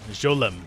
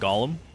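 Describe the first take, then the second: First: The word begins with a soft J sound. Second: The word begins with a hard G sound. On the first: The speaker calls it right. "pronounce Gollum with a soft G. Like Jolem" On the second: The speaker calls it wrong. "habitually I pronounce it Gollum"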